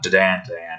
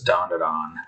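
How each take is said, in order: First: The first syllable does not sound like 'dawn'. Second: The first syllable sounds like the word 'dawn'. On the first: "or however that is said" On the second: "Like the Dawn"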